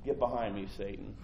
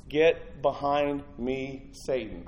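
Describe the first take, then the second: First: Low, soft and firm; a calm, heavy warning, almost under the breath; quiet stern rebuke. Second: Each word drawn out slowly; slow deliberate rebuke. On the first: Jesus turning to Peter, low and quietly stern. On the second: Jesus repeating his rebuke of Peter, slow and weighty. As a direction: lay the words down one by one. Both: Acted. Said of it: "Jesus turned and said".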